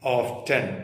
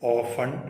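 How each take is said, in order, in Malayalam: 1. ഈ വാക്ക് t ശബ്ദത്തോടെയാണ് പറയുന്നത്. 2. ഈ വാക്ക് t ശബ്ദമില്ലാതെയാണ് പറയുന്നത്. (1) "ഇതിന്റെ കറക്റ്റ് സായിപ്പിന്റെ ഉച്ചാരണം ഓഫ്റ്റൻ എന്നാണ്" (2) "ടി പലപ്പോഴും ഉച്ചരിക്കാതെ നിങ്ങൾ സ്കൂളിൽ പഠിച്ചിട്ടുണ്ടായിരിക്കും"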